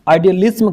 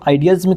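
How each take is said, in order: First: The word is said with an L before 'ism'. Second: The word is said without an L before 'ism'. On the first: The speaker calls it right. "आइडियलिज्म कर दिया एल लगा करके" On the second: The speaker calls it wrong. "अगर इसको हम आइडियलिज्म कहते तो अच्छा नहीं लगता"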